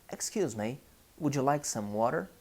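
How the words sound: It is spoken in a North American English accent. "If you travel to United States, to Canada, probably you listen"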